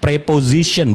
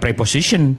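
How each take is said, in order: First: The middle consonant is a z sound. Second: The middle consonant is an s sound. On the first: The speaker calls it right. "Bacanya Z" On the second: The speaker calls it wrong. "bukan preposition"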